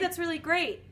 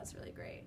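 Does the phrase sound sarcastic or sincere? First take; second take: sincere; sarcastic. First: It is said in a sincere, genuine tone. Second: It is said in a sarcastic, ironic tone. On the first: The speaker means the words literally. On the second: The speaker means the opposite of the words.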